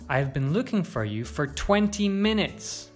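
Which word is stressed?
twenty minutes. The stress is on twenty minutes. The length of time matters most. "You could also stress twenty minutes"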